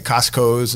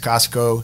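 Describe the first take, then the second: First: The word ends with an added s sound. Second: The word ends without an s sound. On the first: The speaker calls it wrong. "Sometimes I got friends that say Costco's" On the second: The speaker calls it right. "it's Costco"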